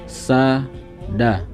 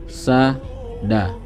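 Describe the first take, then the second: No difference in how they are said.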